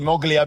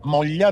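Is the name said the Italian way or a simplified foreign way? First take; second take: simplified; Italian. First: The name is said in a simplified foreign way. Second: The name is said with Italian pronunciation. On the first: "everybody abroad ... they call it Moglia because it's easier to pronounce" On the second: "That's the right uh, pronunciation in Italian"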